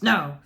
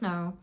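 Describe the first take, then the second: First: The word is said forcefully and hard. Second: The word is said softly and gently. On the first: The refusal is new and pushes people away. "a little bit forceful to begin with, like a punch in the face" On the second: The refusal comes from feeling good in oneself. "a much softer no"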